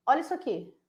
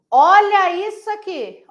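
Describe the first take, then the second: First: Softly, a little above usual pitch; understated. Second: Loud, high, drawn-out exclamation; emphatic. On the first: Teacher showing students an error, understated and soft. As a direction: point it out quietly. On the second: Teacher showing students an error, loud and emphatic. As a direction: stretch it out in loud alarm. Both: Shown as a demonstration. Repeats the line, building up.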